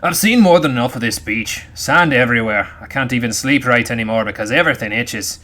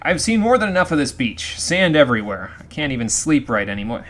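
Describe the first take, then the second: First: It is read in a put-on pirate voice. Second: It is read in his normal voice.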